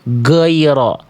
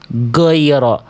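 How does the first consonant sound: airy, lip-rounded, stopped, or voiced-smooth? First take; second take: stopped; stopped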